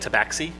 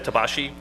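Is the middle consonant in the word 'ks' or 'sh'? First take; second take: ks; sh. First: The middle consonant is a 'ks' sound. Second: The middle consonant is an 'sh' sound. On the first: The speaker calls it wrong. "I wish people would stop saying tabaxi" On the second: The speaker calls it right. "the proper pronunciation of X"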